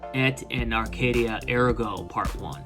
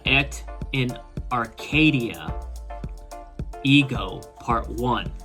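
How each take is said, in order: First: The title is said with Italian or Latin pronunciation. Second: The title is said with English pronunciation. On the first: "if it's Italian or Latin, it might be pronounced" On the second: "if I'm pronouncing it the way the English pronounce it"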